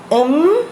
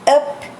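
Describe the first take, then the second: First: The syllable ends in a nasal m sound. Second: The syllable ends in a p sound. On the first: The syllable comes before an n sound. "tinha uma pronúncia nasal que soava com o som do miam" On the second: The syllable is read on its own. "Lemos a segunda"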